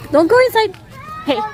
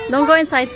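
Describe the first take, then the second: First: Calling out. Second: Said in the usual way. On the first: Real, not acted. Parent warning child at zoo.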